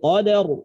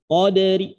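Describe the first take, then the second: First: The final r is heavy and fully stopped. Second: The final r is light, with a faint vowel. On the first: "ro-nya itu dibaca mufakhomah, tebal" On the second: "ro-nya dibaca tipis"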